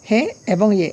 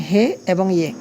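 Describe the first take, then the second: The two takes are said the same way.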